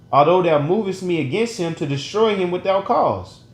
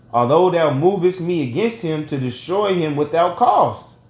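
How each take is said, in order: The two takes are said the same way.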